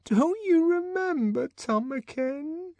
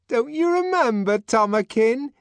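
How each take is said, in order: First: High, slow, faltering plea; trembling. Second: High, rising, eager question; pleading Linda. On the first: Linda repeating her plea to the director, trembling. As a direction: let the voice shake with hurt. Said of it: "in a voice that trembled". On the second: Linda urging the director, high and hopeful. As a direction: coax him to remember. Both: Acted.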